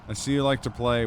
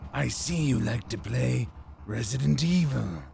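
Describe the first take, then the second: First: It is said in his normal voice. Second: It is said in a Psycho Mantis voice.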